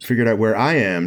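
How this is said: The stress falls on the word I. The speaker contrasts himself with someone else. The speaker calls it right. "emphasizing the I"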